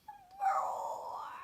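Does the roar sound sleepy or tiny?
tiny. The roar sounds small and tiny.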